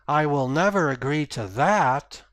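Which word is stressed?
that. The stress falls on the word that. A better offer might change the speaker's mind. "if I put emphasis at the end of the sentence"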